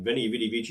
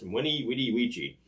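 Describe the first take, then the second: First: The first word begins with a V sound. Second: The first word begins with a W sound. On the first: "I'm going to stick with the V's" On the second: "should be pronounced"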